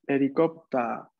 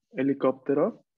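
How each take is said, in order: First: Helicóptero said the Japanese way as herikoputa, slowly; teacher models helicóptero as Japanese herikoputa, slow and careful; Japanese pronunciation. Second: Said in the usual way. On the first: Shown as a demonstration. Teacher showing students the Japanese word, slow Japanese pronunciation. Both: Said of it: "La encontramos en palabras como helicóptero".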